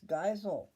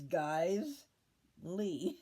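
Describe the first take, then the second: First: The name ends with a 'sel' sound. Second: The name ends with a 'lee' sound. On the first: It is read the way the spelling looks. The speaker calls it wrong. "It looks to me, you know, when I look at it, it's Geisel. But it is not" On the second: It is said the way the family says it. The speaker calls it right. "It's Guys Lee"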